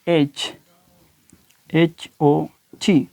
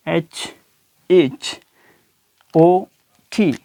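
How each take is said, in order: Both takes have the same delivery.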